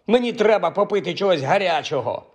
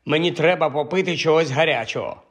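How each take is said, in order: First: Higher, insisting on треба попити чогось гарячого; indignant demand. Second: Said in the usual way. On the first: A narrator's reading. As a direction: repeat the demand, now put out. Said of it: "обурився Хаул". (обурено, наполегливо)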